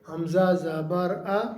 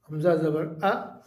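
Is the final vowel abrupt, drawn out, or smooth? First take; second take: smooth; abrupt. First: The final vowel is even, neither stretched nor jolted. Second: The final vowel is cut off with a jolt. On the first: The speaker calls it right. "बग़ैर खींचे, बग़ैर झटका दिए" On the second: The speaker calls it wrong. "ये झटका है"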